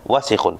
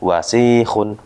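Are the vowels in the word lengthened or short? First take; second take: Short; Lengthened. First: All the vowels are said short. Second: One vowel is drawn out long. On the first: The speaker calls it right. "Wasikhun pendek" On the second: The speaker calls it wrong. "bukan juga wasikhun"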